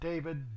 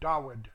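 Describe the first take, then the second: First: The middle consonant is a v sound. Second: The middle consonant is a w sound. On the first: The speaker calls it wrong. "not David" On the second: The speaker calls it right. "it's pronounced Dawid, D-A-W-I-D"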